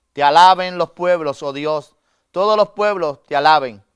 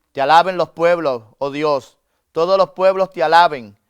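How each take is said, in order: The two takes are said the same way.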